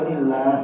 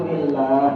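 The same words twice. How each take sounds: Both takes have the same delivery.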